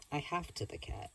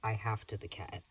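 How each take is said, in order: First: "I have to the cat" lifted higher and softer, teasing; playful higher repeat. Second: Said in the usual way. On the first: Shown as a demonstration. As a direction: repeat it up high with a cheeky grin. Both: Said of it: "Please do not the cat".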